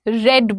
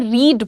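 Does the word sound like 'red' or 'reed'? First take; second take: red; reed. First: The vowel is short, as in 'red'. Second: The vowel is long, as in 'reed'. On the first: It describes a past action. "रेड बोलते हैं।" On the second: It describes a present habit. "तो तुम यहां पर इसे रीड बोलोगे।"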